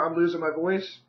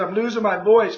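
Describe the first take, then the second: First: Said in the usual way. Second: Raised voice, louder and firmly repeated. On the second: Real, not acted. Agent repeats to client on the phone, raised voice. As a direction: repeat it louder so the listener catches it. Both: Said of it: "I said".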